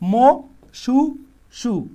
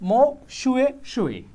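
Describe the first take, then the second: First: The repeated syllables start with a plain 's' sound. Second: The repeated syllables start with an 'sh' sound. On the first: The speaker calls it wrong. "সহজভাবে আরো ভাঙ্গা বলি" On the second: The speaker calls it right. "তো এইভাবে না বলে মো শুয়ে শুয়ে"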